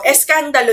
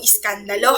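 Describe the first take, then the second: First: The first vowel is an e sound. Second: The first vowel is an i sound. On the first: The speaker calls it right. "Eskandalo yon" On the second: The speaker calls it wrong. "hindi po iskandalo ha"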